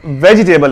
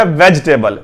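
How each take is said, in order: First: वेजिटेबल as "ve-jee-table"; wrong pronunciation. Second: वेजिटेबल as "vej-table"; वेजिटेबल without its middle vowel; correct pronunciation. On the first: Teacher rules this reading out, wrong pronunciation. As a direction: sound the i in वेजिटेबल. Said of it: "वेजिटेबल नहीं है". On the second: Teacher states the correct pronunciation for learners. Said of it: "इसका जो correct pronunciation है". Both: Shown as a demonstration.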